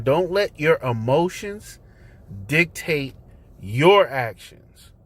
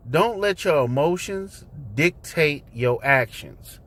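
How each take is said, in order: First: Slow and deliberate, pausing around "dictate"; "dictate" set apart by pauses, "your actions" drawn out; emphatic repeat. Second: Said in the usual way. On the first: Shown as a demonstration. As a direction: spell it out in chunks, leaning hard on "your actions". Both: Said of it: "let me say it again".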